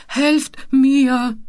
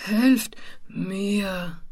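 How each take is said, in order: First: Pitiful wail for help, raised in pitch; plaintive call. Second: Slow, softer plaintive call, sliding downward; voice sinking deeper. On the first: Mumpo held over the edge, calling plaintively for help. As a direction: call out piteously. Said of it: "rief Mumpo mit kläglicher Stimme". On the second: Mumpo calling for help, his plaintive voice suddenly deepening. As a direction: let the plea droop lower and lower. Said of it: "die plötzlich immer tiefer wurde". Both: Acted.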